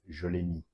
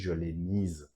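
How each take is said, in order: First: The last word ends in a vowel, no z. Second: The last word ends with an audible z sound. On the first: The agreement with a feminine object is dropped. "many French people will just go with" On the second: The agreement with a feminine object is made. "So it's going to be heard in the pronunciation"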